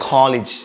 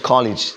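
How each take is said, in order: No difference in how they are said.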